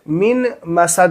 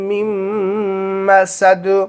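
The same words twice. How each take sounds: First: The n sound of min is pronounced separately. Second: The n sound merges into the following m. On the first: The speaker calls it wrong. "मिन मसद नहीं पढ़ेंगे, नून को यहाँ पे नहीं पढ़ना है" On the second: The speaker calls it right. "मीम को मीम में मिला देंगे"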